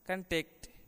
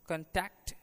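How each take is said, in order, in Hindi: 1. बलाघात अंतिम अक्षर पर है। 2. बलाघात पहले अक्षर पर है। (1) "क्रिया के रूप में अंतिम अवयव पर" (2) "संज्ञा के रूप में उस पर बल पहले अवयव पर पड़ता है"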